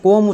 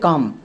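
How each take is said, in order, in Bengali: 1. স্বরধ্বনিটি গোলাকার 'o' এর মতো শোনায়। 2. স্বরধ্বনিটি খোলা 'a' এর মতো শোনায়। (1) "এই ওয়ার্ডটিকে আমরা কম উচ্চারণ করি না। সো এটা আমাদের এখানে ভুল" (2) "তাহলে এর উচ্চারণটা হবে কাম"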